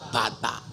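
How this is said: It is said in Ngapak, with a-sounds.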